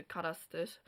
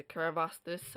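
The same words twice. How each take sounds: First: "Carastis" said the Munster way, with no v sound; Munster pronunciation. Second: "Carvastis" said the Connacht way, with a v sound; Connacht pronunciation. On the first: Teacher comparing dialects for learners, Munster pronunciation of "Carastis". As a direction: say "Carastis" without a v in the middle. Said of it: "in Munster we say Carastis". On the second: Teacher comparing dialects for learners, Connacht pronunciation of "Carvastis". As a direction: put a v in the middle of "Carvastis". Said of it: "but they say Carvastis". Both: Shown as a demonstration.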